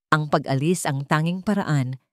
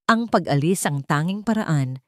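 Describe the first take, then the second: No difference in how they are said.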